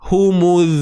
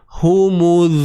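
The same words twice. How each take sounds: First: The word is said at normal speed. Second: The word is said slowly and drawn out. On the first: "dengar baik-baik eh" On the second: "Ni saya buat gerak perlahan"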